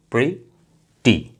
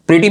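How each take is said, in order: First: प्रिटी slowly in two parts, pri, ti; split into syllables. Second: Said in the usual way. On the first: Shown as a demonstration. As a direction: clear pause between pri and ti in प्रिटी. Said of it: "दो हैं syllables". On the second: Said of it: "प्रिटी में कितनी है".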